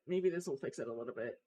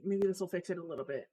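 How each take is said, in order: First: Lower, softer, fast mumble; quieter repeat. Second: Rapid muttered hope; fast muttering. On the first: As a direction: drop it to a low fast mumble. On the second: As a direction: rush it under the breath. Muttering while fixing settings. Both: Real, not acted.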